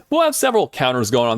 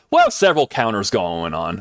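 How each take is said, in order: First: Said in the usual way. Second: Said too loud into the mic; a loud burst, blowing out eardrums. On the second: Real, not acted. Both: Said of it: "That was a little loud".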